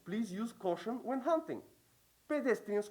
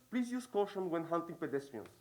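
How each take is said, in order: First: There is a break after the word hunting. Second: There is no break after the word hunting. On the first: Hunters should be careful because walkers may be nearby. "There are two ways of reading this sign" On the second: Hunters should be careful while hunting walkers. "it's one comma that's missing"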